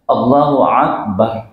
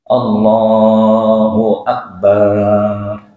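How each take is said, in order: First: The opening glottal stop becomes a throaty ain. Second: The ba sound in Akbar is drawn out long. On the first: "hamzanya diganti dengan ain" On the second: "Baknya dibaca panjang. Nggak boleh juga"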